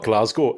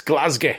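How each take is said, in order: First: Said in the usual way. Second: Glasgow with a "-gay" ending; local Glasgow pronunciation. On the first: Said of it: "No, it's not Glasgow". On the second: Shown as a demonstration. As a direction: say "Glasgow" as GLAZ-gay, not GLAZ-go. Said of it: "it's not Glasgow. It's Glasgow".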